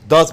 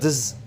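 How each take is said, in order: First: The word has a full, clear vowel. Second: The word has a weak, reduced vowel.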